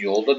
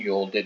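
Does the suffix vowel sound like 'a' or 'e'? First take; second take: a; e. First: The ending has a back vowel, like 'a'. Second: The ending has a front vowel, like 'e'. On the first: The speaker calls it right. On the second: The speaker calls it wrong.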